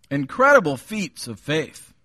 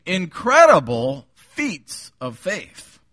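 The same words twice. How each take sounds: First: Said in the usual way. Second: Slow, emphatic title; title announced. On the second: Shown as a demonstration. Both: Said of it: "I've titled the message this morning".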